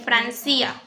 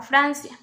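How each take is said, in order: First: Francia shifted to fran-CÍ-a; stress on i in Francia. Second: Said in the usual way. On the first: Shown as a demonstration. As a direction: move the accent of Francia onto the i. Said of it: "el acento está en la I". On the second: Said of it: "de tener el acento en Fran".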